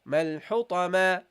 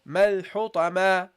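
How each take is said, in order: The two takes are said the same way.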